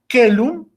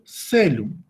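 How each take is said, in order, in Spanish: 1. La palabra empieza con un sonido k fuerte. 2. La palabra empieza sin un sonido k fuerte. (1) "C de casa, es decir, que en el latín clásico, eh, caelum se pronuncia como celum" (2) "pero en la italiana se pronuncia como celum"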